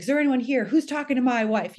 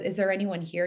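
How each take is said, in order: First: Imitating a husband's challenge, higher and louder; raised, demanding voice of a protective husband, retold; asserting male dominance. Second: Said in the usual way. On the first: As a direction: call out a mock-macho challenge to an intruder. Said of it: "asserting the male dominance". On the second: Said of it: "when he says".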